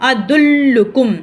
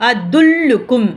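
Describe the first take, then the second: Both takes have the same delivery.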